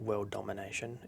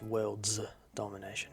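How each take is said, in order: First: Said in the usual way. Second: "worlds" with a long buzzing final "s"; stress on plural ending. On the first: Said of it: "it's worlds domination". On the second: Shown as a demonstration. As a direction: lean on the "s" in "worlds", then pause. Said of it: "it's not world domination".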